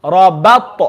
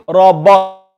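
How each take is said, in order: First: Rabat with a smiled ba and echoed t; smiley ba. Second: Rabat with a dark, rounded ba; full ba. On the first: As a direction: smile through the ba of Rabat, bounce the t. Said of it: "make sure you smile for the ba". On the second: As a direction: say the ba of rabat full, not smiley. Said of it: "we don't want to say". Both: Shown as a demonstration.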